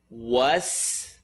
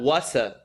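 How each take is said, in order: First: The word ends on the s sound. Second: A vowel is added after the s. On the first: The speaker calls it right. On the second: The speaker calls it wrong.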